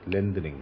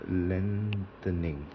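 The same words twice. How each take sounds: First: Said in the usual way. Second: Lengthening drawn out slowly and softly; slow careful word. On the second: Shown as a demonstration. Teacher sounding out lengthening for the class, slow and soft. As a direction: stretch lengthening out syllable by syllable, quietly. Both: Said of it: "L E N G H".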